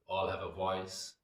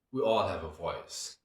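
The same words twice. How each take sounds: First: Said in the usual way. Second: Louder, with the weight on "all"; emphatic declaration. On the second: Real, not acted. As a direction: lean hard on "all" and let "voice" fall. First emphatic statement of theme.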